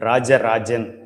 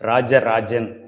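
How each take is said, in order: First: The name uses 'j' sounds. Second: The name uses 'j' sounds.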